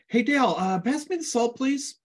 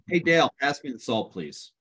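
First: The voice rises at the end. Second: The voice falls at the end. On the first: The speaker sounds like he is begging. "Sounds like I'm begging him to please pass me the salt" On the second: The speaker sounds like he is demanding with authority. "the other is pass me the freaking salt"

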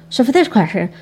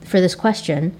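First: It is said frenetically fast and jumbled. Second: It is said clearly at a normal pace.

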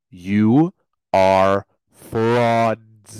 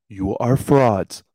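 First: It is said very slowly. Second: It is said at normal speed.

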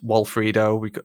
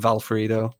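First: The name begins with a W sound. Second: The name begins with a V sound. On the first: "their names begin with W's" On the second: "you pronounce it like a V"

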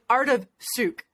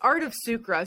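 First: The name is said with a French accent. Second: The name is said with a plain English accent.

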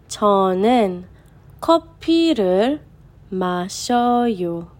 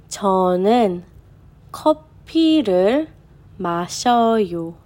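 No difference in how they are said.

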